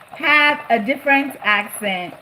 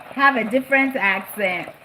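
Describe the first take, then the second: No difference in how they are said.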